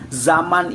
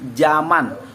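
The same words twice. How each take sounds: First: The first sound is a z. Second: The first sound is a j. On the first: This is the standard form. "kata baku zaman" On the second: This is the non-standard form. "Huruf Z-nya itu diganti menjadi huruf J"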